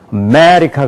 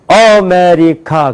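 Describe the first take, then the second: First: It is said with English-style, clearly stressed syllables. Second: It is said with Korean-style, unstressed syllables. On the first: A listener in America would understand it. The speaker calls it right. "아메리카 그래야지 한단 말이에요" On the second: A listener in America would not understand it. The speaker calls it wrong. "아까 그대로 아메리카 그럼 못 알아들어요"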